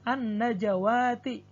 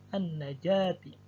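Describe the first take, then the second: First: An extra wa syllable is pronounced. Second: No extra wa syllable is pronounced. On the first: The speaker calls it wrong. "tertulis wawu" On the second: The speaker calls it right. "namun yang dibaca adalah alifnya"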